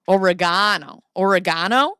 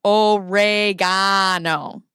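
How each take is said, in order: First: Oregano with loud emphasis on the GA syllable; stress on GA. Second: Oregano stretched very slowly and loudly, leaning on GA; loud, drawn-out o-re-GAH-no; mock wrong emphasis. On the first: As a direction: say Oregano as o-re-GAH-no, louder. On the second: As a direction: overdo each syllable of Oregano, long GA. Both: Shown as a demonstration. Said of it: "put the wrong emphasis on the wrong syllable".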